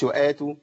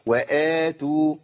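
First: The opening long vowel is rushed and cut short. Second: The opening long vowel is held its full length. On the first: The speaker calls it wrong. "في ناس بتجري على البدل ما ينفعش" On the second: The speaker calls it right. "وآتوا، مش وآتوا"

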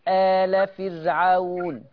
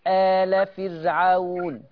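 First: The opening vowel is held for two counts. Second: The same.

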